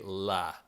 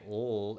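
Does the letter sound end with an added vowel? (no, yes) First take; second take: yes; no. First: The sound has an added vowel. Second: The sound is a bare consonant. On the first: The speaker calls it wrong. "it does not say la" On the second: The speaker calls it right. "L does say l"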